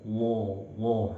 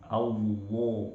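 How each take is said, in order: First: The thick sound is closed in and muffled. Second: The same.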